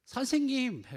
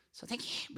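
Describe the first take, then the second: First: High, loud cry to a teacher; acted pleading shout over a crowd; desperate call. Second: High, soft mock call to a teacher; soft high-pitched demo cry; wrong way of calling out. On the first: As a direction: call out urgently, pitched right up. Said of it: "간절한 거죠". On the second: Shown as a demonstration. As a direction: call out high and thin, without real force. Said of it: "이렇게 하는 게 아니고".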